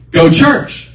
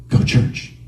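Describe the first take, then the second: First: High, loud order; insistent inner voice. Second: Hushed, whispered nudge. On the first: Voice arguing with the driver, loud insistence. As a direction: overrule him forcefully. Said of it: "that voice came again and said". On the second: Inner voice after a moment's silence, whispered. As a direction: whisper the command. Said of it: "like a whisper". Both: Retold or imitated.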